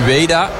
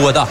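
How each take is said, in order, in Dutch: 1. De naam wordt uitgesproken met lange klinkers. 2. De naam wordt uitgesproken met allemaal korte klinkers. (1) "Wij zeggen dus Ueda" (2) "Dus met allemaal korte klinkers"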